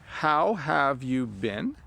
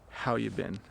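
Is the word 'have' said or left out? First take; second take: said; left out. First: The word 'have' is clearly said. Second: The word 'have' is left out. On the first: "So it's" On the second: "We don't even say have"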